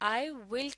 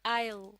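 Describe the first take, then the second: First: It is said as two full words. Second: It is said as one contracted syllable. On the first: "I will की जगह" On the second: "I will को बोलते वक्त I'll भी कहा जाता है"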